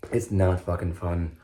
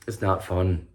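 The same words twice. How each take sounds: First: Slower, weight on "not" and "fucking"; stress on not. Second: Said in the usual way. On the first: Shown as a demonstration. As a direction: lean hard on "not", slow it down.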